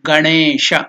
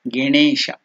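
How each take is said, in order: First: The first syllable is said with an 'a' vowel. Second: The first syllable is said with an 'e' vowel. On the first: The speaker calls it right. "It is Ga Ganesha. ... that is the correct pronunciation" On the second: The speaker calls it wrong. "You should never utter it as Ganesha. ... You should never tell Ge"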